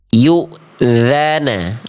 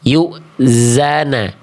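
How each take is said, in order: First: The middle consonant is a voiced th sound. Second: The middle consonant is a z sound. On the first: The speaker calls it right. "yang D itu begini, lihat huruf zalnya" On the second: The speaker calls it wrong. "Kalau yang A salah karena yang A itu zai"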